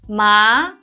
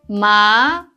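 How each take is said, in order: First: The pitch rises like a question. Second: The pitch rises like a question.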